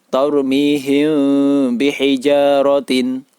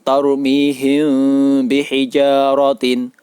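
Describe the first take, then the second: Both takes have the same delivery.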